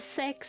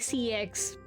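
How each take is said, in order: First: The name is said as a single word. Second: The name is said as two separate letters. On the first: "Is is sex actually the official pronunciation?" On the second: "I say C X"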